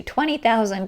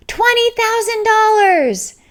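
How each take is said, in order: First: Said in the usual way. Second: High, loud shouted bid from the crowd; imitating a yelled bid. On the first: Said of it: "the whole room just went crazy". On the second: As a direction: shout the bid across the ballroom. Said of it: "a woman go-, yells out".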